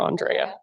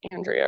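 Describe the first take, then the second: First: Andrea with a broad AH, "ahn-DRAY-uh"; first vowel as AHN. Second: Andrea with a flat A as in "and"; first vowel as in AND. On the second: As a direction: say Andrea as AN-dree-uh. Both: Shown as a demonstration. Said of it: "I'm like saying both".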